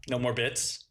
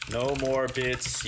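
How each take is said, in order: First: Said in the usual way. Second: No more bits, stretched out, stress on "more"; slow drawn-out poll read. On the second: Shown as a demonstration. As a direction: drag out "No more bits" slowly, leaning on "more". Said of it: "I'll do a poll just for you".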